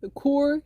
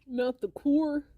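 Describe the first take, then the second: First: A bit louder, drawn-out California "core"; mock California accent. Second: Put-on California accent. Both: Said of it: "California accents are very funny".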